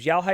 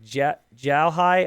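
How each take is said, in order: First: The first sound is not said like a J. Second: The first sound is said like a J.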